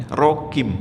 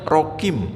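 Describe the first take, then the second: The two takes are said the same way.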